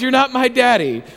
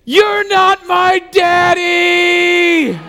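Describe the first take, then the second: First: Mild mock yell, slightly raised pitch; retold scream. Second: High, drawn-out shriek at full volume; toddler screaming. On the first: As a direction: report the toddler's scream without really shouting. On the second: Retold or imitated. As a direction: imitate a tiny child wailing it out very slowly. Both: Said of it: "She's screaming at the top of her lungs".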